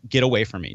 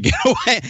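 First: Said in the usual way. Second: High-pitched mock push-away; retold refusal jumping up high; insistent. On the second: Panicking guest refusing a ride from his host, insistent.

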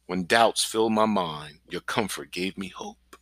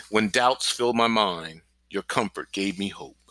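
First: Slow and softer, sinking into meditation; softer slow recitation. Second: Slow, measured recitation of a psalm; slow verse recitation. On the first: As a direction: breathe the verse out softly and slowly. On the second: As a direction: recite it slowly, word by word. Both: Shown as a demonstration. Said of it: "Pronounce the word clearly and slowly".

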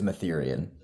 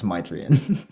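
First: "Mytherian" stressed in the middle, like "Ethereum"; mistaken name pronunciation. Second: "Mythrian" with a long "my" at the start, drawn out; full-name pronunciation. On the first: Admitting an old misreading, "Mytherian" rhymed with "Ethereum". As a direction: say "Mytherian" as muh-THEER-ee-un. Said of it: "used to think it was Mytherian". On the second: Correcting a friend on a name, "Mythrian" slowly with a long i. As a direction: say "Mythrian" slowly as MYTH-ree-un, first vowel like "my". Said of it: "his name is pronounced Myth". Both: Shown as a demonstration.

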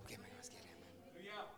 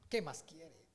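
First: Hushed, breathy question to the congregation; whisper. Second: Said in the usual way. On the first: Acted. Preacher whispering to the congregation, a hushed plea. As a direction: drop to a whisper and lean in.

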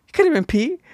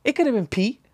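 First: Higher, louder insistence on "could"; insistent. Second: High defensive blame on Pete. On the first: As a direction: push harder this time. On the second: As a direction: nudge the blame away. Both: Retold or imitated. Shifting blame, repeated.

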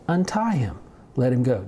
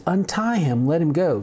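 First: Said in the usual way. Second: Calling from a distance. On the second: Retold or imitated. Jesus keeps his distance from the smelly man, calling out. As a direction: call it out from well back. Jesus wasn't gonna get that close.

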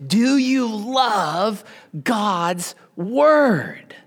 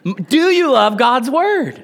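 First: Slow, half-whispered question to the congregation; soft slow question. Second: Pushed up, louder and higher, urging a response; rally the crowd to answer; louder rallying question. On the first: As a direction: draw them in softly, almost a whisper. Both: Real, not acted. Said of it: "Come on".

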